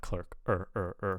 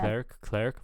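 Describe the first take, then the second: First: "clerk" as "clurk", with an er vowel; target vowel. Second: "Clerk" said as "clairk"; mispronounced vowel. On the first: Reviewer modelling the wanted clerk, er vowel. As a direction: hold an r-coloured er in "clerk". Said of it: "but I want". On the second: Reviewer copying the learner's Clerk, air vowel. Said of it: "but I'm hearing, like". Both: Shown as a demonstration.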